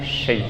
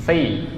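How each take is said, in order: First: "shi" with a soft hushing sh from mid-tongue; mistaken shin. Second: "si" with a heavy tongue-tip s; correct sad. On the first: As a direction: say "shi" as the wrong, hushed version. ("shi" dengan bunyi syin dari tengah lidah) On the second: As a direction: say "si" on a thick s, not a hush. ("si" dengan bunyi sod di ujung lidah) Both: Shown as a demonstration. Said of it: "tapi si bukan shi ya".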